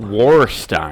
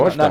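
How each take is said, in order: First: It is said with an American-style pronunciation. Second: It is said with a German-style pronunciation. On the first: "speak American" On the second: "That's how it's pronounced"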